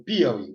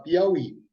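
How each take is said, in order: First: PIAUÍ said wrongly as PÍaui, stressed at the start; "Piauí" with stress pulled onto PI; misplaced stress. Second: PIAUÍ with the stress on the last syllable, Í; "Piauí" as an oxytone, piau-Í; stress on final Í. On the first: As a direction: hit the first syllable of "Piauí", let the end fall. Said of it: "Você não fala Piauí". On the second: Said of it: "Você fala Piauí". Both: Shown as a demonstration.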